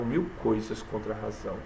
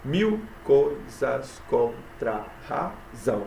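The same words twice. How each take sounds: First: Said in the usual way. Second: "Mil coisas contra a razão" very slow, broken into syllables. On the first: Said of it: "Diz assim". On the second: Shown as a demonstration. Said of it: "sete sílabas". ("Mil coisas contra a razão" escandido bem devagar)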